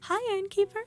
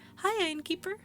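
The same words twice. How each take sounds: First: It is said in a very high voice. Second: It is said in a lower voice.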